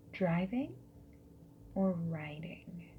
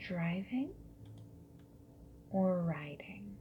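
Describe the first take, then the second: No difference in how they are said.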